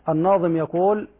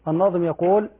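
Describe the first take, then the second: Both takes have the same delivery.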